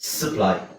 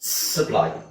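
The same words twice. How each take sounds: Both takes have the same delivery.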